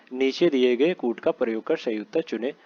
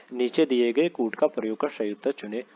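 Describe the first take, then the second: No difference in how they are said.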